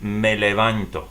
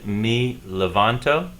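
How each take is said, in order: First: The first word's vowel sounds like 'eh'. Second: The first word's vowel sounds like 'ee'. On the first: The speaker calls it right. "the letter E in Spanish is pronounced E. So I need to say this" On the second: The speaker calls it wrong. "I made a mistake in my presentation. I pronounced this phrase"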